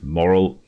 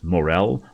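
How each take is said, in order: First: The word sounds like 'moral'. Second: The word sounds like 'morel'. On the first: The speaker calls it wrong. "I've been pronouncing this moral my entire life" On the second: The speaker calls it right. "Turns out it's pronounced morel"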